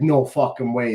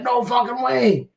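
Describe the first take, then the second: First: Said in the usual way. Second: High, drawn-out retold astonishment; amazed disbelief. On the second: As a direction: imitate a waitress reacting in stretched, high-pitched disbelief. Waitress amazed on hearing the voice.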